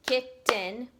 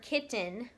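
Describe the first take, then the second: First: "kitten" in two separate beats; "kitten" broken as kit, ten; split into syllables. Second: Said in the usual way. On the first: Shown as a demonstration. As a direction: clap out "kitten", loud, with a gap between kit and ten. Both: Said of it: "practice clapping out some syllables".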